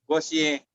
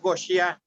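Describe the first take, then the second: First: The word ends in an e vowel. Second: The word ends in an a vowel. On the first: "boleh gosye" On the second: "Boleh gosya"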